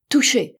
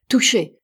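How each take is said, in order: First: Higher, loud echoing shout; answering cry. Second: Loud hit call, falling at the end; triumphant cry. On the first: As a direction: fire it back higher than the first. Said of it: "riposta Bell". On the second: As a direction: shout it out like scoring a hit. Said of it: "s'écria l'Américain". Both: A narrator's reading.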